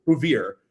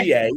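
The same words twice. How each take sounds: First: Bouvier said the South Philly way, "bev-eer"; local pronunciation. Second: Bouvier said as "boo-vee-ay"; wrong pronunciation. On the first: Teaching guests local South Philly Bouvier. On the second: Showing guests the outsider's wrong Bouvier. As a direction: read Bouvier French-style "boo-vee-ay". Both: Shown as a demonstration. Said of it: "It's not Bouvier".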